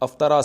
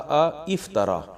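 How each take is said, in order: First: The word starts directly with 'af', no 'i'. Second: A separate 'i' syllable follows the first 'a'.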